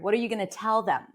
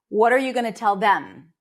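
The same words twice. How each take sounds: First: The stress falls on the word tell. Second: The stress falls on the word them. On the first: The speaker calls it right. "in English, it's usually the last content word" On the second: The speaker calls it wrong. "sometimes there is a tendency of stressing the last word in the sentence, especially if it's a pronoun"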